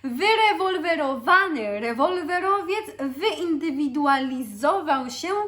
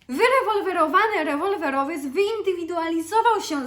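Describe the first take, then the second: First: The phrase is said at a slower pace. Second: The phrase is said at a faster pace.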